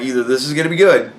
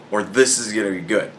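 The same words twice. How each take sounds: First: Quick, lifting up on "good"; stress on GOOD. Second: Lower, softer, leaning on "this"; stress on THIS. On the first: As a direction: rush it and punch "good". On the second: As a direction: drop down and stress "this". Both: Retold or imitated. Contrasts two possible outcomes.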